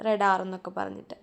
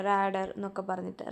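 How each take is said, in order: First: റഡാർ with a short first a and a long second one; teacher correcting herself to റഡാർ; corrected pronunciation. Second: റാഡർ with a long first a and a short second one; teacher mispronounces റാഡർ before correcting; slip of the tongue. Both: Shown as a demonstration.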